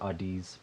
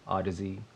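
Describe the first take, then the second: First: The name is said like 'Oddies'. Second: The name is said like 'Odyssey'. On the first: The speaker calls it wrong. "That's how I thought it was at first" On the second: The speaker calls it right. "pretty sure it's Odyssey"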